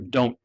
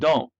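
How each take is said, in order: First: Every sound in the word is pronounced. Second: A sound is dropped from the word. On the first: The speaker calls it right. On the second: The speaker calls it wrong.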